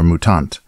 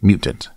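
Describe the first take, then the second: First: It is pronounced with Swedish sounds. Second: It is pronounced with English sounds.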